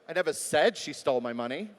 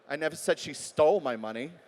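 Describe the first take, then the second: First: The word "said" carries the stress. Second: The word "stole" carries the stress. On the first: It may have been written instead. "Maybe it was in an email" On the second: She may have been given it. "Maybe I gave it to her"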